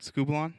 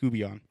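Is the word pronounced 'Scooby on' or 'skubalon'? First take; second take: skubalon; Scooby on. First: The word is said as skubalon. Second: The word is said as Scooby on. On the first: The speaker calls it right. "You guys ever heard that word" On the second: The speaker calls it wrong. "he can't say it right. He goes"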